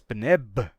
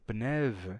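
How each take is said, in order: First: It ends in a stop b sound. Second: It ends in a fricative v sound. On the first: This is the older pronunciation. "não é mais pneb" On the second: This is the later pronunciation. "o beta era fricativo"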